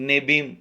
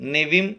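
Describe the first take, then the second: First: The middle consonant is a b sound. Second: The middle consonant is a v sound. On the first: "நெபீம் என்றும் சொல்லலாம்" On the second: "நெவிம் என்றும் சொல்லலாம்"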